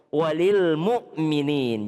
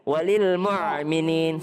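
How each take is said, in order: First: A light glottal stop follows mu. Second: A throaty ain sound follows mu. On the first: The speaker calls it right. "itu adalah huruf hamzah" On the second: The speaker calls it wrong. "Jangan ... Salah. Keliru"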